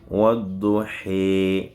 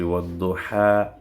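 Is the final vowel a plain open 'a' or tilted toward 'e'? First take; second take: tilted; plain. First: The final vowel is tilted toward 'e'. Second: The final vowel is a plain open 'a'. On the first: The speaker calls it right. "on dit he. C'est le même A, mais ça a subi une torsion" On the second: The speaker calls it wrong. "on ne dit plus wadduha"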